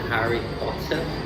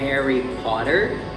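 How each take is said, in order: First: The name is said in a British accent. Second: The name is said in an American accent. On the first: "I prefer saying Harry Potter because this is the way I heard all my life" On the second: "I have problems saying Harry Potter"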